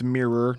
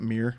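First: The final 'or' syllable is clearly pronounced. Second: The final 'or' syllable is swallowed or dropped. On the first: The speaker calls it right. "It's Mirror" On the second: The speaker calls it wrong. "not Mirror"

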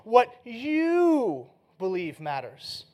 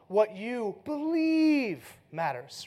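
First: The stress is on you. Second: The stress is on believe.

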